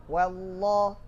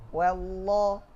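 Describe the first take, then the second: The two takes are said the same way.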